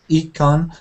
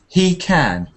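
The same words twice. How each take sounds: First: It is said with a French accent. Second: It is said with an English accent. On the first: The speaker calls it wrong. "So not he can" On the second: The speaker calls it right. "a bit more English"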